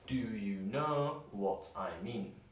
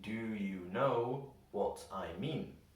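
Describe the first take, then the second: First: The words are linked with reduced schwa vowels. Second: The words are said slowly and separately. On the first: "We can use linking and change how a lot of the words sound" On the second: "if we read it slowly, it would sound like"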